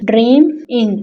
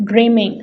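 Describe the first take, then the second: First: "dream, ing" in two beats with a gap between; split into syllables. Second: Said in the usual way. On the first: Shown as a demonstration. Teacher showing pupils two syllables, split into syllables. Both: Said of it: "इस word के भी दो syllable हैं".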